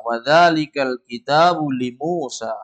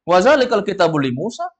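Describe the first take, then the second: First: "wa zalikal kitabu li Musa" slow, falling on "Musa"; telling intonation. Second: "Wa zalikal kitabu li Musa" higher, rising on "Musa"; questioning intonation. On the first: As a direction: state "wa zalikal kitabu li Musa" in long measured syllables. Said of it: "ini ngasih tahu". ("li Musa" turun, memberi tahu) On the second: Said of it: "itu nanya itu". ("li Musa" naik seperti bertanya) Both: Shown as a demonstration.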